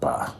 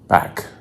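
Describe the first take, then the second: First: The syllable ends openly, without a k sound. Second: The syllable ends with a clear k sound. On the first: The speaker calls it wrong. "It's not ba" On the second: The speaker calls it right. "Always remember it's back"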